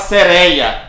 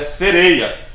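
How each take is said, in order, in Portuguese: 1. O ditongo tônico tem vogal aberta. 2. O ditongo tônico tem vogal fechada. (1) "A gente não fala sereia. Se fosse sereia, teria acento" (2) "Mas é sereia"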